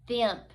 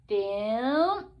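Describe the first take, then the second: First: The word is said quickly as one unit. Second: The word is blended slowly and drawn out. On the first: "and then read it fast like a real word" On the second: "Read it slowly"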